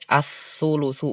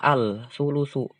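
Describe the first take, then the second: First: The l is merged into the following s sound. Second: The l is clearly pronounced before the s. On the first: The speaker calls it right. "dibacanya dileburkan langsung" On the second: The speaker calls it wrong.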